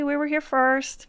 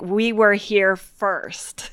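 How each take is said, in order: First: It is said in a polite, calm tone. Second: It is said in an angry, forceful tone.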